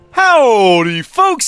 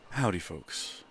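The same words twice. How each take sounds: First: It is said with lively, upbeat energy. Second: It is said quietly in a subdued, somber tone.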